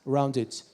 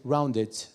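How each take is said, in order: First: It is said in a British accent. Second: It is said in a British accent.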